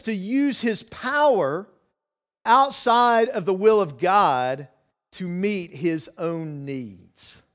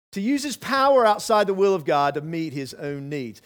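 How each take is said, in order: First: Each phrase slowed, with pauses between; slow, emphatic reading. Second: Said in the usual way. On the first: Shown as a demonstration. Preacher lays out the first temptation to the church, slow and deliberate. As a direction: spell it out slowly for the congregation.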